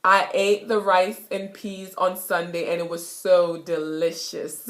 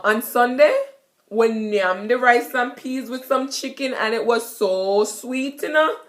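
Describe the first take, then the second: First: Said in the usual way. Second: Jamaican patois. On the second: Shown as a demonstration. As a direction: tell about Sunday dinner in patois. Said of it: "you could say".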